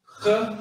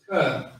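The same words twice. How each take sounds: First: First "ka" forced out with a throaty rasp on the k. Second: Said in the usual way. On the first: Shown as a demonstration. Teacher contrasting two similar Hebrew letters, throaty "ka". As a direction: push "ka" from the throat like clearing it. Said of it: "with your damn throat". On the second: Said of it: "it's like ka".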